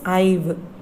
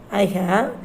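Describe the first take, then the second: First: It is said as one contracted syllable. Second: It is said as two full separate words. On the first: The speaker calls it right. "We should pronounce it as I've only" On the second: The speaker calls it wrong. "The full form is I have"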